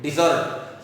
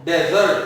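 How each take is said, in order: First: डिजर्ट said as di-ZERT, stress on the second syllable. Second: डेजर्ट said as DEZ-ert, stress on the first syllable. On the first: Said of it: "हम इसे बोलेंगे". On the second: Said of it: "जब हम इस word को पढ़ते हैं". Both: Shown as a demonstration.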